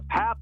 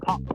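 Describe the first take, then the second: First: The name is said the American English way. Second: The name is said the Hungarian way. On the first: "Pap in American English" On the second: "in Hungary, I think it's Pop"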